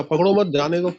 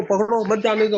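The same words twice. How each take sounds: First: "पकड़ो मत" as one unit, then "जाने दो"; break after मत. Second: "पकड़ो", then "मत जाने दो" as one unit; group मत with जाने दो, meaning don't let him escape; break after पकड़ो. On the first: Servants' reading of the king's order, break after मत. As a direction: join मत to पकड़ो, meaning let him go. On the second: King's intended order to catch the thief, break after पकड़ो. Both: Retold or imitated. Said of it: "बोलने के style में ही फर्क है".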